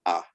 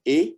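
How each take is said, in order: First: "A" said as an open "ah"; the letter "A" voiced as a Creole "ah"; Creole A sound. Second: Said in the usual way. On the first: Shown as a demonstration. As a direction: pronounce "A" as "ah", not "ay". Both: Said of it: "but we pronounce it A".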